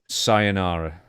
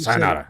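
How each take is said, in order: First: It is said in a calm, neutral tone. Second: It is said in a harsher, angry tone.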